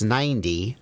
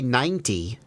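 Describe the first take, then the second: First: The middle consonant sounds like a soft D. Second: The middle consonant is a clear T sound. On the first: The speaker calls it right. "There's a thing we do where we turn T's into D's" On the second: The speaker calls it wrong. "I don't say ninety"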